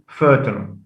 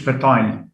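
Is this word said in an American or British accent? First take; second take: American; British. First: It is said in an American accent. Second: It is said in a British accent. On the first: "In American, fertile" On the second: "In British, it's fertile"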